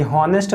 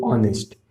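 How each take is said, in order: First: हॉनेस्ट with the h sounded; wrong H reading. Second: ऑनेस्ट starting on the vowel; correct silent H. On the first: Teacher rejects misreading of honest, h wrongly sounded. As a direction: voice the silent h at the start of हॉनेस्ट. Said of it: "ये हॉनेस्ट नहीं लिखा है". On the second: Teacher gives correct pronunciation of honest, h silent. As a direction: say ऑनेस्ट with no h sound. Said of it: "इसका correct". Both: Shown as a demonstration.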